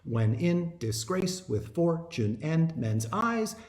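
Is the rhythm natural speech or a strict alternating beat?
strict beat. Every second syllable gets a strict, even beat. The speaker calls it wrong. "That's iambic pentameter"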